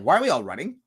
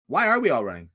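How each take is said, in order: First: "running" lifted at the end; questioning rise. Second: "are" stressed, falling finish. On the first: Asking why everyone acts like a hive, questioning rise on "running". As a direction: ask it with the tune rising on "running". Rhetorical question asked twice, varied. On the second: Pressing the question about the hive, stressed "are". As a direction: lean on "are", then let the tune fall. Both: Real, not acted.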